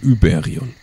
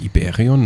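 First: The name begins with a rounded 'ü' vowel. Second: The name begins with a plain 'i' vowel. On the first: The speaker calls it right. "Mit Ü. ... Muss das Ü aussprechen" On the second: The speaker calls it wrong. "Nicht Iberion"

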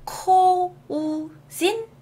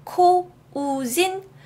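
First: It is read letter by letter, as spelled. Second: It is read letter by letter, as spelled.

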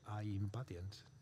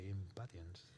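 First: The first vowel sounds like 'eye'. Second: The first vowel is a short 'ih'. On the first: The speaker calls it wrong. "you don't say I impatiens" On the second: The speaker calls it right. "you say impatiens"

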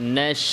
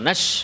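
First: The vowel is given its full even length. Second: The vowel is clipped short and rushed. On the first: The speaker calls it right. "স্বাভাবিকভাবে বলবো" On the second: The speaker calls it wrong. "নাশ এভাবে না"

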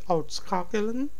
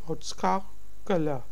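First: The final n sound is pronounced. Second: The final n sound is dropped. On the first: "Some people would say it uitschakelen" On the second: "So N is silent or it's in a very soft tone"

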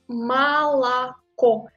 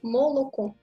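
First: The first two vowels sound like A. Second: All three vowels sound like a full O. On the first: The speaker calls it right. "Mais il faut dire Malako parce que l'accent tombe sur O final" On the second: The speaker calls it wrong. "Vous voyez la trois O"

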